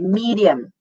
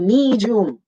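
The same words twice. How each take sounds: First: The middle consonant sounds like a plain d. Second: The middle consonant sounds like j, long e. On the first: The speaker calls it right. "You say medium" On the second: The speaker calls it wrong. "with a J and the long E"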